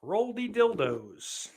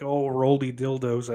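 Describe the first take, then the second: First: "Roldy Dildos" drawn out slowly, higher, savouring each word; savoured nickname. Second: Said in the usual way. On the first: Acted. A nickname that's gonna stick.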